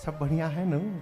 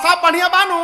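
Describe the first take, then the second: First: The question is spoken softly and gently. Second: The question is shouted loudly. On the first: The talk is affectionate and close. The speaker calls it right. "जिससे प्रेम की बात करनी होती है उससे धीरे धीरे बोला जाता है।" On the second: Nobody talks of love this way. The speaker calls it wrong. "प्रेम की बात चिल और बताओ, ... ऐसे कोई नहीं बोलता"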